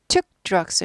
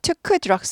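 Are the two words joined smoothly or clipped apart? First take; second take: clipped; joined. First: The words are clipped and detached, staccato. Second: The words run together smoothly. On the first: The speaker calls it right. "여기 스타카토죠" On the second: The speaker calls it wrong. "아니고"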